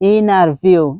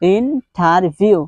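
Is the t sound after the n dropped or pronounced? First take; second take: dropped; pronounced. First: The t after the n is dropped. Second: The t after the n is pronounced. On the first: "American স্টাইলে যদি আপনি বলতে চান তাহলে আপনাকে বলতে হবে ইনারভিউ" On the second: "এটার বেসিক প্রনাউন্সিয়েশন কিন্তু হচ্ছে ইন্টারভিউ"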